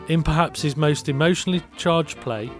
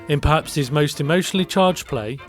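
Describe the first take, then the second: Both takes have the same delivery.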